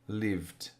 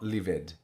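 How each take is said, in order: First: The ending is a t sound, one syllable. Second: The ending is an extra separate syllable. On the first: The speaker calls it right. "the ed pronounced as t" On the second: The speaker calls it wrong. "not lived"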